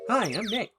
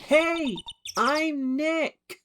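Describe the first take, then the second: First: It is said at a normal, quiet volume. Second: It is said loudly, almost shouted.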